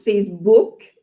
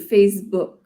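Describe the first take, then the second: First: The vowel in book is a full 'ou'. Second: The vowel in book is more subtle. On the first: "Nous autres, on dit Facebook, vraiment le ou" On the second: "Puis toi, c'est plus subtil"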